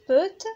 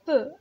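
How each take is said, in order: First: The final t is pronounced. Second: The word ends in a vowel, t silent. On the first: The speaker calls it wrong. "كنقولوش بوت" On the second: The speaker calls it right. "كنقولو peu"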